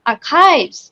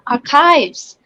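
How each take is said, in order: First: The h is silent. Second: The same.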